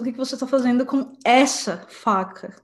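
The word essa is strongly stressed.

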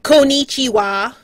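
It is said with a heavy, clumsy foreign accent. "it would be like, konnichiwa. You know, like, really, really painful"

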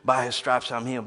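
It is said in a mechanical, repetitive way.

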